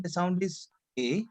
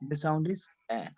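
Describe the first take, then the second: First: "A" as a closed French é, ay; acute-accent E. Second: "A" as an open French è, eh; grave-accent E. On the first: Teacher recaps right-hand accent sound, acute-accent E. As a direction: say "A" as a tight ay vowel. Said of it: "it is going towards right hand side". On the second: Teacher recaps left-hand accent sound, grave-accent E. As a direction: say "A" as a wide eh vowel. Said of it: "it is going towards left hand side". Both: Shown as a demonstration.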